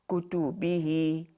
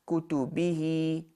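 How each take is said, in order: No difference in how they are said.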